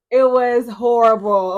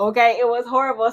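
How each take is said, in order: First: Louder and dragged out, stressing "it was horrible"; an exasperated groan of "it was horrible"; loud, slow emphasis. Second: Said in the usual way. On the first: Real, not acted. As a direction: lean hard on each word of "it was horrible". First take, stressed emphatically.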